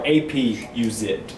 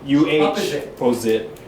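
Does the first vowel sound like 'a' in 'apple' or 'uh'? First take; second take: a; uh. First: The first vowel is a full 'a' sound. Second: The first vowel is a weak 'uh' sound.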